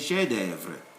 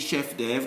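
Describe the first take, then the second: First: The F in chef is left silent. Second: The F in chef is clearly sounded. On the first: The speaker calls it right. "you say chef d'oeuvre" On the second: The speaker calls it wrong. "you don't say chef d'oeuvre"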